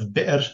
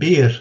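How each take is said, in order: First: A glottal stop is heard after the vowel. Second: No glottal stop is heard after the vowel. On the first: "instead of bi'r" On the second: "they said bi'r"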